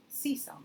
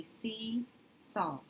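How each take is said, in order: First: Said in the usual way. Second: Seesaw read slowly as two parts, "see" and "saw"; slow sounding out. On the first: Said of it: "that is a word I've heard". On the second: Shown as a demonstration. Teacher sounding out the word for students, slowly. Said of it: "So this would make this".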